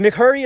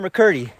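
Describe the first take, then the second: First: McCurdy said "mick-HUR-dee"; pronounced with an H. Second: McCurdy said "muh-KUR-dee"; hard K in McCurdy, no H sound; pronounced with hard C. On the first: Hiker asking companion the mountain's name, McCurdy with an H. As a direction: sound an H in McCurdy, "Mc-Hurdy". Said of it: "with a H". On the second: Hiker offering companion the other name, McCurdy with a K. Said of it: "Is it McCurdy or McCurdy?". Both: Shown as a demonstration.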